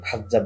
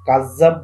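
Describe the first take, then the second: First: The first sound is a raspy kh. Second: The first sound is a plain k. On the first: "খাযযাব বলা বলা হয়েছে" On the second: "কাযযাব বলতে"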